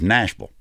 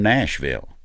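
First: The ending is a reduced 'vul' that falls off. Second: The ending is a full, clear 'ville'. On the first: This is how locals say the name. The speaker calls it right. "it's V-U-L. It just falls off at the end" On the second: This is how outsiders say the name. The speaker calls it wrong. "Nashville ain't Nashville if you from Nashville"

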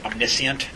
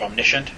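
First: The ending vowels are both pronounced separately. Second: The ending is merged into one syllable. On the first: "I would always say omniscient" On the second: "instead of omniscient"

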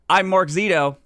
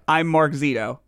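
First: It is said with high energy. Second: It is said with low energy.

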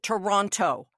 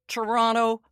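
First: The second t is clearly pronounced in the name. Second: The second t is dropped in the name. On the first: This marks the speaker as an outsider. The speaker calls it wrong. "calls it Toronto" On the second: This is how locals say the name. The speaker calls it right. "Nobody who lives in Toronto"

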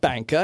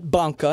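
First: It is pronounced the English way. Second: It is pronounced the Italian way. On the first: The speaker calls it wrong. "not Banca" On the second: The speaker calls it right. "Italian bank, not the British bank"

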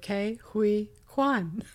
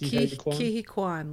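First: The name is said slowly, syllables kept apart. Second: The name is said fast, syllables run together. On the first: The speaker calls it wrong. "I always say it stupidly" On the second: The speaker calls it right. "like that, like fast"

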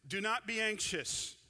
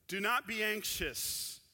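No difference in how they are said.

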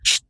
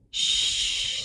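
First: The shh is sharp and stern. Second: The shh is soft and loving.

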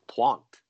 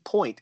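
First: The word is pronounced with a French sound. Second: The word is pronounced like English point. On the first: The speaker calls it right. "But it's French, It should be Pointe" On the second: The speaker calls it wrong. "it shouldn't be Point"

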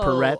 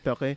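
First: The surname is pronounced in an anglicized way. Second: The surname is pronounced in a French way. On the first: This is how the local commentators say it. The speaker calls it wrong. "if you're going to go to the Quinnipiac commentators, they say" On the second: This is how a French Canadian name is meant to sound. The speaker calls it right. "it should be Yanniv Perret"

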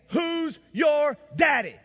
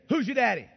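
First: It is said loudest and most emphatically. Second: It is said at normal loudness.

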